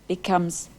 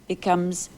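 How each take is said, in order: Both takes have the same delivery.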